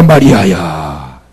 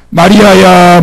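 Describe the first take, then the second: First: Much lower, slow, drawn-out 마리아야; tender low call. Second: Higher, louder ringing call of 마리아야. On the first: Jesus repeats Mary's name, low and slow. Jesus calls Mary again. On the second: Jesus calls Mary's name, loud and higher. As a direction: call 마리아야 out so it carries far. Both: Acted.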